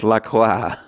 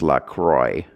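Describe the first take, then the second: First: Croix is pronounced the French way. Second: Croix is pronounced in a non-French way. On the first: It is a French word. The speaker calls it right. "the correct way, which is the French way" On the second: This is how the brand's owners say it. The speaker calls it wrong. "even the people who own it say that it's supposed to be pronounced La Croix"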